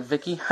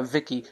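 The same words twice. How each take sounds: First: VICKY with a rising question tune; questioning echo. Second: Said in the usual way. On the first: Retold or imitated. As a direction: repeat VICKY back as a question. She repeats the name in question.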